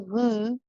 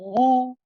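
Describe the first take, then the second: First: It sounds light and thin. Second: It sounds heavy, with the tongue back raised. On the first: The speaker calls it wrong. "Ru would be like a, a lighter sounding one" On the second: The speaker calls it right. "and it's heavy, ... You want ru"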